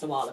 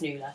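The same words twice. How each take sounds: First: The name is said as read from its spelling. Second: The name is said the traditional Irish way. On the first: This is how it was read from a book. The speaker calls it wrong. "she thought it was Nuala, pronounced Nuala" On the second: This is the real Irish name. The speaker calls it right. "but actually it's Nuala"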